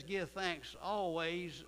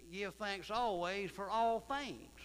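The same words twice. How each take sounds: First: Each word drawn out slowly; slow scripture emphasis. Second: "all" pushed higher and louder, slow; slow, heavy reading with "all" leaned on; emphatic scripture. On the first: Preacher reading the verse to the congregation, slow and weighty. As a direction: lay the verse down slow and heavy. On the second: Preacher repeating the verse for the congregation, slow and emphatic. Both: Acted.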